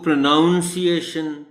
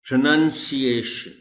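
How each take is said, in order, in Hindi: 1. दूसरा अक्षर 'noun' जैसा सुनाई देता है। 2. दूसरा अक्षर 'nun' जैसा सुनाई देता है। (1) "इसी को लोग गलत प्रोनाउंस करते हैं" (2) "द करेक्ट वर्ड इज"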